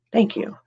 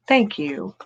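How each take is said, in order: First: Said in the usual way. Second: Unvoiced, breathy thank you; whispered thanks. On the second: Real, not acted.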